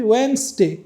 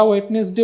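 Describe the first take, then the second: First: ওয়েডনেসডে as "WENS-de", no D sound; correct pronunciation. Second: ওয়েডনেসডে with sounded T, "wet-nes-de"; wrong spelling pronunciation. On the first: Teacher correcting the mistake for learners, silent-D pronunciation. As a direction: shorten ওয়েডনেসডে to two syllables, "wens-de". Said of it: "আমরা বলি ওয়েডনেসডে". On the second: Teacher demonstrating a common mistake, sounding the silent letters. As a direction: say ওয়েডনেসডে as spelt, in three syllables. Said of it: "সেটা হলো যে ভুল pronunciation". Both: Shown as a demonstration.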